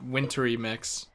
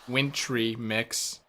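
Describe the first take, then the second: First: Wintry is said with three syllables. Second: Wintry is said with two syllables. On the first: This is how the speaker expected it to be said. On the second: This is how it is actually pronounced. "but instead"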